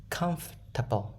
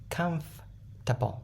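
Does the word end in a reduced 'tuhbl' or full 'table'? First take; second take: reduced 'tuhbl'; reduced 'tuhbl'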